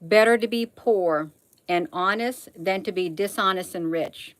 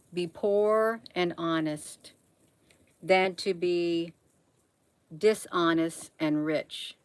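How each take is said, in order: First: Said in the usual way. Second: Slow, softer, each word weighed; slow emphatic repeat. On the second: Real, not acted. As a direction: spell it out slowly so it sinks in. Repeats the proverb slowly for emphasis.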